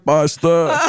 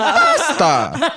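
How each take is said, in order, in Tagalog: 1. Payak ang himig ng pagbigkas sa salitang pasta. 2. May kakaibang himig ang pagbigkas sa salitang pasta. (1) "Tapos pag pasta" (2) "May tono pala pagka pagkain"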